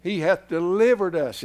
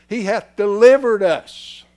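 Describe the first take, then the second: First: Said in the usual way. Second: He hath delivered us, louder, higher and slow on delivered; emphatic repeat. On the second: Shown as a demonstration. Preacher repeating the verse to the congregation, emphatic. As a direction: hammer delivered home slowly. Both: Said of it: "it says".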